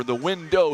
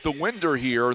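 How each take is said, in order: First: Said in the usual way. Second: Southern accent slip. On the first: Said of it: "Sorry, Tim". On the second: Real, not acted. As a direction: let the Southern accent turn "window" into "winder". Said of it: "my southern accent got the best of me there".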